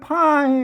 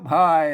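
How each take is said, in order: First: The word has a higher falling tone. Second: The word has a low tone. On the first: This is the Tai Yuan pronunciation. "เปิ้นออกเสียงสูงไปหน่อย" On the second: This is the Tai Lue pronunciation. "ไตลือน่ะเปิ้นออกเป็นเสียงเอก"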